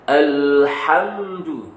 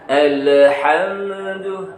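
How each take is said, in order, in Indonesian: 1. Huruf m tertutup, tidak ada vokal setelahnya. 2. Vokal ditambahkan setelah huruf m. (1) "ini harus tahu bacaannya" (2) "tidak dibaca ... Yang sudah sukun mati dihidupin lagi"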